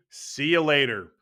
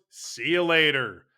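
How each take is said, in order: Both takes have the same delivery.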